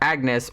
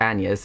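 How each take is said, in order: First: The name has a plain English pronunciation. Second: The name has a local, foreign-style pronunciation.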